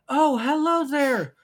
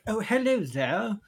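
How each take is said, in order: First: It is spoken with only the pitch raised. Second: It is spoken in a British accent. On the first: The speaker calls it wrong. "all I heard was, ... your British accent was just you raising the pitch of your voice" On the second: The speaker calls it right. "The British accent is like"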